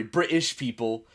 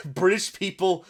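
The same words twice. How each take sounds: First: "British" with a glottal stop for the T; T dropped in British. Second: Said in the usual way. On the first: Shown as a demonstration. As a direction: swallow the T in "British". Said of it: "don't pronounce the T". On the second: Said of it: "sorry, British people don't pronounce the T".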